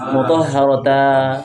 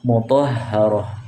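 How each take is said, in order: First: The word ends with a lengthened a vowel. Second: The word ends with an h sound. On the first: The speaker calls it wrong. "Tidak boleh mutahharata" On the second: The speaker calls it right. "tidak dibaca mutahharata tapi mutahharah"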